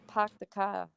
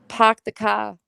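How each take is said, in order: First: It is said at normal, quieter volume. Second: It is said louder.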